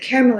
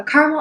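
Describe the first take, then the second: First: "caramel" in three syllables, CARE-uh-mel; "caramel" with an airy "care" start and a separate "uh"; three-syllable pronunciation. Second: "caramel" in two syllables, CAR-mul; "caramel" starting like the word "car", then "mul"; two-syllable pronunciation. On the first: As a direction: say "caramel" as CARE-uh-mel, middle vowel sounded. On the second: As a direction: say "caramel" as CAR-mul, middle vowel dropped. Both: Shown as a demonstration. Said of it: "Is it caramel or caramel?".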